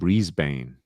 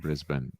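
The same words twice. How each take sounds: First: It is said with an American pronunciation. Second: It is said with the local Australian pronunciation. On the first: The speaker calls it wrong. "like a lot of Americans saying Brisbane" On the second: The speaker calls it right. "rather than Brisbane"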